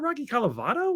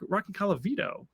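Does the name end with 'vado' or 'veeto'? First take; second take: vado; veeto. First: The name ends with a 'vado' sound. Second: The name ends with a 'veeto' sound. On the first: The speaker calls it wrong. "I've been saying it wrong this whole time" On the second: The speaker calls it right. "It's Vito"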